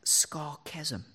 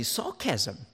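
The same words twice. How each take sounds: First: Scar chasm said slowly as two words; wordplay split. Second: Said in the usual way. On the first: Shown as a demonstration. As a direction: break sarcasm into scar chasm. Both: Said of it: "I like to refer to sarcasm as scar chasm".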